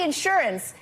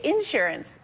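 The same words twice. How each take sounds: First: "insurance" with the weight on SUR; usual pronunciation of insurance. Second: "insurance" with the weight on IN; Southern pronunciation of insurance. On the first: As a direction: say "insurance" the standard way, in-SUR-ance. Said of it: "see, I say insurance". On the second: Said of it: "doing the little Southern accent thing". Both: Shown as a demonstration.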